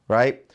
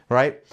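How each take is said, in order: Both takes have the same delivery.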